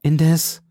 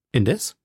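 First: INDES higher and louder, left hanging; hesitant break-off. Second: INDES as a question, rising at the end; questioning echo. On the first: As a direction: break off on a raised, emphatic INDES. Breaks off, friend echoes it. (INDES laut und hoch, dann abgebrochen) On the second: Echoes the broken-off word. (INDES fragend, am Ende steigend) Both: A narrator's reading.

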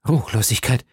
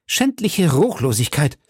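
First: Said in the usual way. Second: Schändliche rising, higher and defiant; defiant outcry. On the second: A narrator's reading. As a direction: hurl schändliche Ruchlosigkeit at the judge. (trotziger Ausruf, schändliche ansteigend betont) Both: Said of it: "rief Milady mit der Begeisterung des Opfers".

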